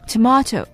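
Tomato is said in the British way. "tomato 的确是澳式和英式的英语"

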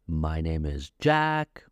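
The voice rises at the end. The speaker calls it wrong. "You don't say"

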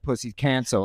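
It is said in a put-on masculine voice.

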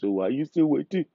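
It is said in an Indian accent.

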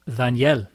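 The name is pronounced the Spanish way. "when I speak Spanish, it's not Daniel. It's Daniel"

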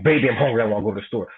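The line is said in an angry tone. "Or you could say it angry"

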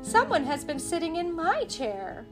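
It is said in a middle-sized voice.

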